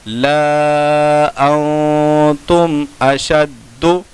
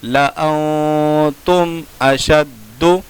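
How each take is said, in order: First: ला अंतुम अशद्दु with ला held long; slow chanted ला अंतुम अशद्दु, alif sounded; written-form reading. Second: ला अंतुम अशद्दु with short ला; slow chanted ला अंतुम अशद्दु, alif silent; correct recitation. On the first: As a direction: stretch ला and hum the nasal in अंतुम. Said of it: "लिखने का तरीका". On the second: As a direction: clip ला, hum the nasal in अंतुम. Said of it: "पढ़ने का तरीका". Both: Shown as a demonstration.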